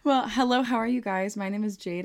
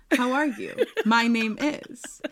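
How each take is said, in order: First: Bright, louder podcast host hello; host greeting. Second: Giggly mock formal intro, slowed down; laughing greeting. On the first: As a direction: greet the listeners properly. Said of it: "Try that, maybe". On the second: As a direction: act out the proper hello with a laugh. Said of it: "Whatever happened to hello?". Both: Shown as a demonstration.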